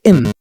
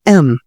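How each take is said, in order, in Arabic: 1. بيبدأ بصوت i، زي 'im'. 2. بيبدأ بصوت e مفتوح. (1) "ما تقولش إم" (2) "في صوت الآ في الأول كده"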